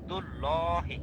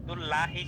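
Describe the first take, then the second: First: ল said as rounded "lo" before হি; heavy, rounded ল, not "la"; full "lo" sound. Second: লা said with open "aa" before হি; thin লা instead of rounded "lo"; mistaken thin "la". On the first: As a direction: model ল with a thick o. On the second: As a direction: show the wrong লা, light open a. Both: Shown as a demonstration. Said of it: "দুল লা হি কিন্তু না".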